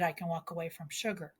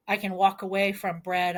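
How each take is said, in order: First: Softer and fast, almost under the breath; quick murmured echo of the line before; quick quiet throwaway. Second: Said in the usual way. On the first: Shown as a demonstration. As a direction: toss the repeat off as a quick aside. Repeated line, tossed off quietly.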